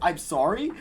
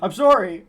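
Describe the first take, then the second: First: It is said as a casual, insincere apology. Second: It is yelled as a genuine apology.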